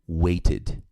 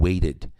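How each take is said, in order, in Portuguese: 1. O T do meio é um T firme e claro. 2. O T do meio é um toque rápido, como o d.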